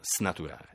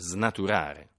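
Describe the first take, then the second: First: The word starts with a voiceless 's' sound. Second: The word starts with a voiced 'z' sound. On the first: The speaker calls it wrong. "non snaturare" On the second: The speaker calls it right. "Si dice snaturare"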